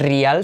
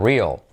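First: The word is said with Spanish-like sounds. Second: The word is said with English-like sounds. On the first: The speaker calls it wrong. "y no es real" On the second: The speaker calls it right. "sino real"

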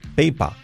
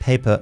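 First: The final r is completely dropped. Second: The final r is faint, with a slight twist. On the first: The speaker calls it wrong. "nos la enseñan como, no se hace, se dice sista, sista, peipa" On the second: The speaker calls it right. "y no es sista y peipa, es sister. Paper"

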